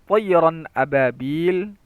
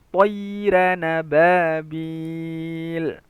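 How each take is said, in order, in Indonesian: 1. Kedua kata diucapkan terpisah. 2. Kedua kata diucapkan menyambung dengan suku kata penghubung.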